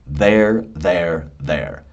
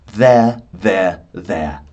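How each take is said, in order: First: It is said in an American accent. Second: It is said in a British accent. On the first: "when you're speaking at a natural speed" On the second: "And if you're British, ... my amazing British accent"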